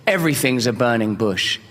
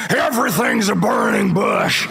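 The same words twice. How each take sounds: First: Said in the usual way. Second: Booming slow proclamation. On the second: Retold or imitated. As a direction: boom it out slowly, as if the old vet is proclaiming. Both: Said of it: "he said it like this".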